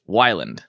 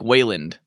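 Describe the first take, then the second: First: The first vowel sounds like 'why'. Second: The first vowel sounds like 'way'. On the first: The speaker calls it right. "How do you say it? Wyland" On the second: The speaker calls it wrong. "I get Wayland a lot. I'm like, [name]. Like, there's no A there"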